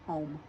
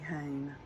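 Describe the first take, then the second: First: The vowel sounds like 'aw' in hawn. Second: The vowel sounds like 'ay' in hane. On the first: This is how the speaker's own community says it. "We say home, H A W N, M, home" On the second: This is how some people in the South say it. "some people in the South say hane"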